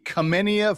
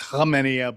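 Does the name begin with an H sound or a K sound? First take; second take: K sound; H sound. First: The name begins with a hard K sound. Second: The name begins with an H sound. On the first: It matches the letters K F C. The speaker calls it wrong. "I had to mispronounce it a little bit" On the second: It is the name's real pronunciation. The speaker calls it right. "I know it's Hamenia"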